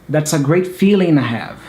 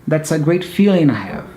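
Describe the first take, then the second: Both takes have the same delivery.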